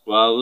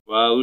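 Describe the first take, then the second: No difference in how they are said.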